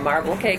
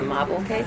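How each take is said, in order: First: The r in marble is pronounced clearly. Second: The r in marble is dropped, New York style. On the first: "we make a marble cake" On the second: "but we call it a mobble cake"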